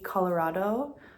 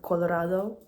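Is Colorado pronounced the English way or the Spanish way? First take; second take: English; Spanish. First: It is pronounced with English sounds. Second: It is pronounced with Spanish sounds.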